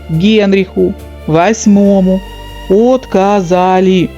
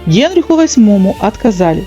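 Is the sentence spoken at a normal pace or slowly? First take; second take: slow; normal. First: The sentence is spoken slowly and deliberately. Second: The sentence is spoken at a normal pace.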